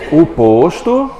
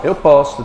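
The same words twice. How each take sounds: First: "posto" com o fechado, lento. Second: "posto" com o aberto, verbo. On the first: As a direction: diga "posto" com o fechado, como substantivo. ("posto" com ó fechado) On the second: ("posto" com ó aberto) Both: Shown as a demonstration. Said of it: "Vai, lê".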